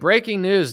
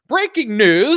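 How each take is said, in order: First: It is said in a relaxed, casual, everyday tone. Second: It is said with dramatic, heightened news-anchor inflection. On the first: It sounds like ordinary conversation. "I guess you wouldn't want to watch something that's like, hey, breaking news" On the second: It is meant to alarm and sound authoritative. "I don't normally talk like this, but I'm on television"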